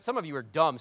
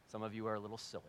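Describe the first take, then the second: First: Said in the usual way. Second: Quieter, gentler take, softer; softened rewording. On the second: Shown as a demonstration. Pastor softens his teasing of the congregation, quietly. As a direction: take the sting out, softer and lower.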